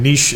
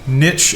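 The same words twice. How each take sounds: First: It is said with a British pronunciation. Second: It is said with an American pronunciation. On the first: "the British English phonetic" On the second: "the American phonetic"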